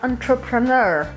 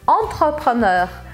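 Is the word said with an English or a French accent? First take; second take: English; French. First: It is said with an English pronunciation. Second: It is said with a French pronunciation. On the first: "Em inglês eles usam assim" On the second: "E em francês, entrepreneur. ... com R bem do francês"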